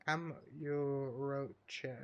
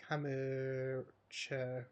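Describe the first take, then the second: First: Kamurocho drawn out slowly with a clear R; sounded-out R. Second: Kamurocho drawn out slowly, the R nearly dropped; barely pronounced R. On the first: Gamer stumbling over a Japanese place name, Kamurocho with a sounded R. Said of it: "I don't think you pronounce the R right". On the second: Gamer retrying a Japanese place name, Kamurocho with a softened R. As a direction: stretch out Kamurocho with hardly any R. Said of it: "massively pronounced, the R". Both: Real, not acted.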